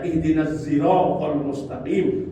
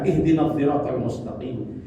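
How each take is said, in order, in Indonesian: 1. Kata itu dimulai dengan bunyi z. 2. Kata itu dimulai dengan bunyi dh. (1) "menerima zai" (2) "menerima dha"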